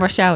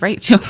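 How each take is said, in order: First: The name is said as Rochelle. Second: The name is said as Rachel. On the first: The speaker calls it wrong. "we always pronounce the name Rochelle" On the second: The speaker calls it right. "It's Rachel"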